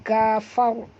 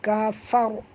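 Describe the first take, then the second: No difference in how they are said.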